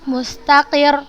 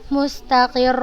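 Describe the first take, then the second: First: The final syllable is said with raised pitch. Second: The doubled letter is drawn out longer. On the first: The speaker calls it right. "gitu cara bacanya" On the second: The speaker calls it wrong. "Bukan kita uh, panjangkan si huruf yang bertasydidnya"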